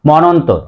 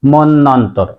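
First: মনন্তর as monontor, one short n; single-n monontor for মনন্তর; common mispronunciation. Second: মন্বন্তর as monnontor with a held double n; careful mon-nontor for মন্বন্তর; correct pronunciation. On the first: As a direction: say মনন্তর quickly with no double n. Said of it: "আমরা অনেকে উচ্চারণ করি". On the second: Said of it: "তাহলে সঠিক উচ্চারণ হবে". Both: Shown as a demonstration.

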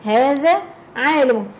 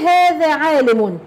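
First: Said in the usual way. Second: هذا عالم read slowly with هذا stressed; slow classroom example read. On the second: Shown as a demonstration. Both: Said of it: "لما أقول".

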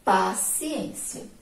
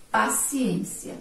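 First: Paciência spelled out slowly, stressed on ên; slow model reading. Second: Paciência read slowly, syllable by syllable; slow model reading. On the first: Teacher to pupils, showing the stressed syllable slowly. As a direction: stretch Paciência so pupils hear the strong syllable. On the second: Teacher to pupils, reading paciência slowly. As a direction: draw out paciência for the class. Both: Shown as a demonstration. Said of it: "vamos fazer a leitura".

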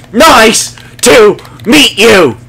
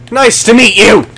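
First: Slow, high and louder, stretching MEET; drawn-out greeting. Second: Bright high hello to the dogs, brisk and short; cheery greeting. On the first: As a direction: draw every word out like talking to a puppy. Greeting dogs, said again slower. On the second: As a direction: greet them quickly, pitched up. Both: Acted.

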